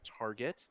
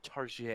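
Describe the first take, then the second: First: It is said in a plain English accent. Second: It is said in a mock French accent.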